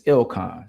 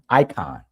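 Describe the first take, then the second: First: The name begins with an 'ill' sound. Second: The name begins with an 'eye' sound. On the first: The owner of the name says it this way. The speaker calls it right. "I'm not icon either. It's Ilcon" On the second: Other people say it this way. The speaker calls it wrong. "they'll say icon"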